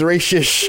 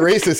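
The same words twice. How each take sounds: First: The word ends with an 'sh' sound. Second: The word ends with an 'st' sound. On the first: The person is only a little bit racist. "With an S-H" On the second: The person is fully racist. "He ain't racist"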